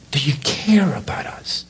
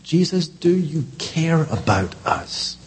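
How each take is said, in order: First: Hushed, unvoiced repeat of the question; breathless whispered plea. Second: Said in the usual way. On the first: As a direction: whisper it like a fearful prayer. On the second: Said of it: "that has been the question".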